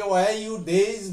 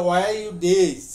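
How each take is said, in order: First: "Why you days?" stretched out slowly, word by word; "Why you days?" dragged slow and clear; slow foreign English. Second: "Why you days?" run together quickly as a native would; "Why you days?" as one rushed phrase; fast foreign English. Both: Shown as a demonstration. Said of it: "আপনাকে বললো যে".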